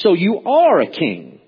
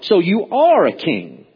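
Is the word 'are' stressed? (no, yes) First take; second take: yes; yes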